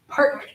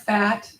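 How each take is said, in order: First: It begins with an aspirated P sound. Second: It begins with an F sound. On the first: The speaker calls it right. "it's an aspirated P" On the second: The speaker calls it wrong. "It's not fat"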